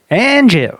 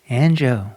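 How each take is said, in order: First: It is said in a corny way. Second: It is said in a smooth voice.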